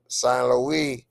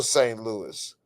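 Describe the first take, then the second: First: Saint Louis said the French way, "san loo-ee"; French pronunciation. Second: Said in the usual way. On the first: Shown as a demonstration. Greeting a viewer from France, Saint Louis in French pronunciation.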